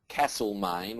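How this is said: It is said the Victorian way. "in um, Victoria, they'll say"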